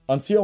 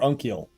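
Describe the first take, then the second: First: The middle consonant is an S sound. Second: The middle consonant is a K sound. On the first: "C or K?" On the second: "C or K?"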